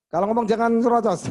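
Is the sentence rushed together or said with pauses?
rushed. It is rushed out without any pauses. The speaker calls it wrong. "Ngomong nyerocos saja udah susah artikulasinya"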